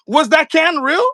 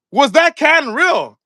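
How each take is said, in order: First: Slow and high, stretch real; slow skeptical question. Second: Slow, louder, hit that; louder stressed repeat. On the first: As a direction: ask it slowly, doubting. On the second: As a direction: lean on that, slowly. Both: Real, not acted.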